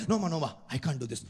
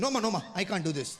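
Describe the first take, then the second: First: Lower, hurried, a hint of an Indian uncle; fast nervous refusal. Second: Rattled off in a hurry, a hint of an Indian uncle; fast nervous refusal. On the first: Indian man turning away an older stripper, fast nervous refusal. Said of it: "refusing again". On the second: Indian man turning away a stripper, fast nervous refusal. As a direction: brush her off quickly and nervously. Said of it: "Indian man refusing".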